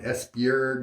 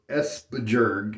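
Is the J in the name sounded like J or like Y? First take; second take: Y; J. First: The J is said as a Y sound. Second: The J is said as an English J. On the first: "If the J is actually like a, a Y sound" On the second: "if I want to say all the letters the way Americans say them"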